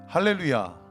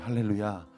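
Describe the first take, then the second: First: The voice sounds placed forward and open. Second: The voice sounds set back in the throat. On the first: The speaker calls it right. "이렇게 하셔야 돼요" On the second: The speaker calls it wrong. "목사님 소리가 뒤로 가잖아요"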